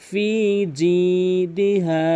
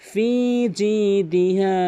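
No difference in how they are said.

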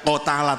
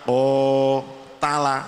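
First: The first vowel is held short. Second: The first vowel is held long. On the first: The speaker calls it wrong. "Tidak o ta la" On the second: The speaker calls it right. "tapi o ta la, itu namanya sudah menunjukkan panjang"

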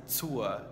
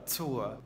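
First: The word begins with a ts sound. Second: The word begins with a ts sound.

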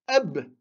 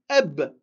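First: The word ends on a bare consonant. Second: The same.

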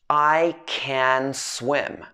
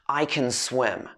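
First: The sentence is spoken very slowly and carefully. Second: The sentence is quick, with can unstressed and merged. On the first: "I'm speaking really slowly here" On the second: "the I and the can would be merged together"

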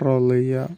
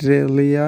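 First: The r is full and heavy. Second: The r is thin and light. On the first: The speaker calls it right. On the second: The speaker calls it wrong.

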